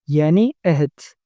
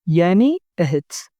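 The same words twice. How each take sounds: The two takes are said the same way.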